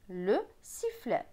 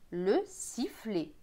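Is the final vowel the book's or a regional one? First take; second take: book; regional. First: The final vowel follows the book's pronunciation. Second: The final vowel follows a regional pronunciation. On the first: "soit avec le E comme dans Bocher" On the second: "Avec la prononciation de ma région"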